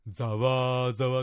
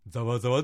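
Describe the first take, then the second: First: The word is stretched out with lengthened sounds. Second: The word is said at its normal length. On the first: "感情豊かに言う場合は、ざわざわって、伸ばしてもいいです" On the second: "ざわざわでもいいです"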